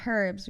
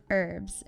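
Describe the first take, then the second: First: "herbs" with a sounded H at the front; H pronounced. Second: "herbs" starting straight on the vowel, like "erbs"; silent H. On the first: Explaining silent letters, "herbs" with the H sounded. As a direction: breathe out the H to start "herbs". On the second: Explaining silent letters, "herbs" without its H. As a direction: drop the H from "herbs". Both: Shown as a demonstration. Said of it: "told the H is silent".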